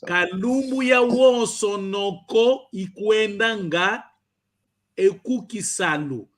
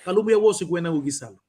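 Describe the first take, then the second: First: Every word is pronounced fully and carefully. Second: Words are reduced and run together quickly. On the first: This is said so a learner can catch every part. "É como eu estivesse a cantar para pegares todas as partes e pronunciares muito bem" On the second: This is how it is said in everyday speech. "ao falar, se eu estiver para falar, eu só diria assim"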